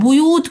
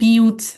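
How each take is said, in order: First: The first syllable has a 'u' vowel. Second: The first syllable has an 'i' vowel.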